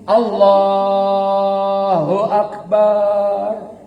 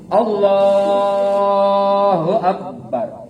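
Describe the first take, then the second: First: The final syllable bar is drawn out long. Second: The final syllable bar is cut short. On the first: It sounds like someone who is heartbroken. The speaker calls it wrong. "Lagi sakit hati yang barnya panjang" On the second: It sounds healthy and sound. The speaker calls it right. "Tuh, sehat"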